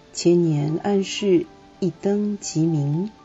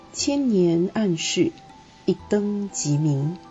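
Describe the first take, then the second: Both takes have the same delivery.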